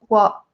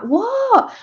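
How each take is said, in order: First: Said in the usual way. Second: High, drawn-out mock astonishment; retold startled what. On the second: Imitating partner reacting to her call, astonished. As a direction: imitate an astonished reply, pitched way up. Retells partner's second, bigger reply.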